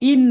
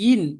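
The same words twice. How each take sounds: First: The syllable starts with a glottal stop. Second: The syllable starts with a y-glide. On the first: The speaker calls it wrong. "ইন না" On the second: The speaker calls it right. "Hamza উচ্চারণ হবে না"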